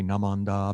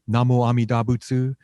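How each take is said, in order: First: The phrase is squeezed into a few syllables. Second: All syllables of the phrase are pronounced separately. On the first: "or you can say Namandab" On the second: "You can say Namo Amida Butsu"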